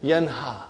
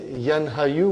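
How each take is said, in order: First: Yanha said as one word, ending in a plain ha; the right form, Yanha; correct form. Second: Yanha, Yu as two separate parts; the wrong form, Yanha and Yu kept apart. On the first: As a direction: say it Yanha, all joined. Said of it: "We say". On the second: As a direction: split it into Yanha then Yu. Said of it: "We don't say Yanha, Yu". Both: Shown as a demonstration.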